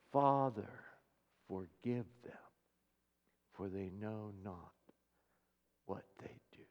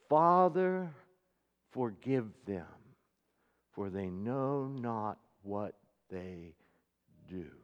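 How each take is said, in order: First: Much softer, sinking down into a breathy whisper at the end; fading to a whisper. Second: A soft, slow, tender plea to the Father; quiet prayer. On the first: Jesus dying on the cross, praying for his killers, fading to a whisper. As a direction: let it fade until only breath carries the last words. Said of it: "he spoke those words". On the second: Jesus praying for his killers from the cross, soft and slow. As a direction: pray it gently, almost under the breath. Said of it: "he spoke the words while they were killing him". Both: Acted.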